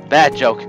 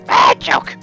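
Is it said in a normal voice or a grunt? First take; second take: normal; grunt. First: It is said in a normal voice. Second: It is said in a grunting voice.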